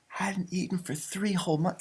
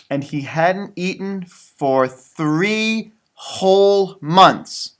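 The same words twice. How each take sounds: First: Much softer, "three" stressed; hushed repeat. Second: "three whole" stretched out slowly; drawn-out emphasis. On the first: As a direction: murmur "three whole months" in awe. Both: Shown as a demonstration.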